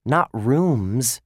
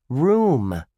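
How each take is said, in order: First: Rooms set against room, loud; stress on rooms. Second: Room said alone, loud and falling; stress on room. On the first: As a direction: contrast the plural rooms. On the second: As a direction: hit Room as the key clue. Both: A narrator's reading. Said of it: "Room, not rooms".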